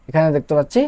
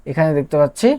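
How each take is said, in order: Both takes have the same delivery.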